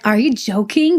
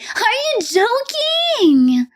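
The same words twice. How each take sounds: First: It is said in a serious, offended tone. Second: It is said in a teasing, playful tone.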